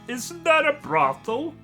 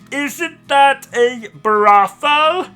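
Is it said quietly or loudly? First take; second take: quietly; loudly. First: It is said at a normal, quieter volume. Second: It is said more loudly.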